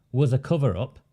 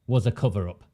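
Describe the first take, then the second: No difference in how they are said.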